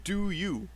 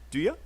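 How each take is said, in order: First: The word 'you' is said fully and separately. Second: The word 'you' is linked and reduced to 'ya'. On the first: The speaker calls it wrong. "we don't say do you" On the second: The speaker calls it right. "we link these sounds together"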